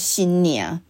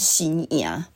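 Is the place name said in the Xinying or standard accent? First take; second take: Xinying; standard. First: It ends with a nasal 'niang' sound, Xinying style. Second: It ends in a plain open vowel, standard style.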